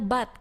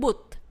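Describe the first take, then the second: First: The vowel is open and unrounded, like in 'nut'. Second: The vowel is rounded, like in 'foot'. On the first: This is the textbook standard form. "yang benar adalah but" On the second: This is how people in Manchester say it. "kok misalkan kita bilang boot. Nah, itu kan dianggap salah"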